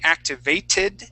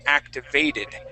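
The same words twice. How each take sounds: First: The second t is a clear t sound. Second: The second t sounds like a d. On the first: The speaker calls it wrong. "so I wouldn't say activated" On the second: The speaker calls it right. "a more American accent would have you say activated, okay, and use that that second T as a D"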